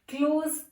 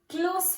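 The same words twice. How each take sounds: First: The word ends with a z sound. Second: The word ends with an s sound. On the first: It is used as a verb. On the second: It is used as an adjective.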